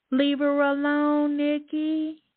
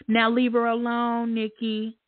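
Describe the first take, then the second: First: Higher, louder and slowed, each word leaned on; emphatic repeat. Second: Said in the usual way. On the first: Real, not acted. Host warning Nikki a second time, loud emphatic. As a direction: say it again so Nikki hears you.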